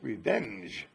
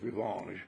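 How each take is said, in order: First: The word has a plain American pronunciation. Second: The word has a European, French-like pronunciation. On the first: "But that's revenge" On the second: "they do not pronounce the American words exactly like I'm used to hearing them. Like Ellen says"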